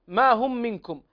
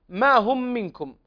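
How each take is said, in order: First: The first vowel is short, words run together. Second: The first vowel is short, words run together.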